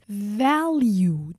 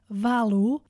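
First: The ending is a clear 'you' sound. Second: The ending lacks a clear 'you' sound. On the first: The speaker calls it right. "Always pronounce it like this, ... It's like val and then you" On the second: The speaker calls it wrong. "don't pronounce it like this"

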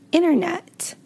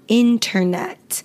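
First: The T after the N is dropped. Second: The T after the N is clearly pronounced. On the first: The speaker calls it right. "We usually say internet" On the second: The speaker calls it wrong. "we don't actually pronounce it internet"

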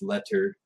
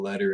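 First: The middle consonant is a crisp, clear T. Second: The middle consonant sounds like a soft D. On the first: The speaker calls it right. "enunciate my T's properly" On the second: The speaker calls it wrong. "it's not D's"

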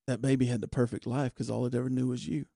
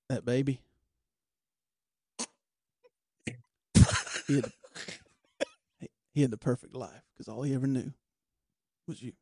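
First: It runs on without a pause after "that baby." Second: It pauses after "that baby" and goes slower. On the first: "I added a little up at the end on that one" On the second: "He's a pause. He slows it down"

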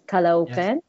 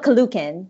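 First: The two middle vowels are said separately. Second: The two middle vowels run together as one. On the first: The speaker calls it right. "there is a separation between the two O's" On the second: The speaker calls it wrong. "it's not Caloocan, which I did say in the first episode"

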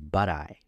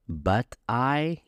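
First: The T in 'but' is a soft D linked to 'I'. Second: The T in 'but' is a clear, separate T. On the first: The speaker calls it right. "you say" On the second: The speaker calls it wrong. "instead of saying"

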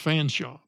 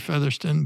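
First: The name is said as two syllables, Fanshaw. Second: The name is said as three syllables, Featherston. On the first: "it's supposed to be even pronounced Fanshaw" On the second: "And I say Featherston"

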